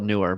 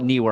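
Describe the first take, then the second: First: The first syllable sounds like 'new'. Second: The first syllable sounds like 'knee'. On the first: This is how other people say the name. The speaker calls it wrong. "I don't know why people call it newer" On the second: This is the speaker's own way of saying the name. The speaker calls it right. "I call it newer"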